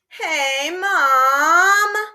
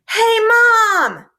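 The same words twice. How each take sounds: First: It is said in a whiny, complaining tone. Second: It is called out loudly.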